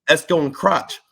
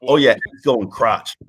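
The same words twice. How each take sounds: First: "Esco and Crotch" repeated higher; emphatic repeat. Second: Said in the usual way. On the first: Retold or imitated. Trainee repeats "Esco and Crotch" to someone who said "What?", emphatically.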